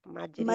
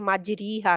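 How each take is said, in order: First: The vowel after r is a leaning 'ay'. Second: The vowel after r is a long 'ee'. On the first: The speaker calls it right. "कतरे की तरह पढ़ेगा, बीमारी की तरह नहीं" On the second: The speaker calls it wrong. "कोई ऐसा कारी मैंने नहीं सुना जो कि इस पे आके मजरी हा कहेगा"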